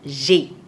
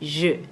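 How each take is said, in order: First: The vowel sounds like the vowel of j'ai. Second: The vowel sounds like the vowel of je. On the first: The speaker calls it wrong. "and not j'ai" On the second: The speaker calls it right. "like this"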